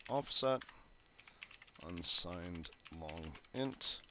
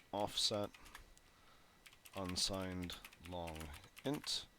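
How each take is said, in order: Both takes have the same delivery.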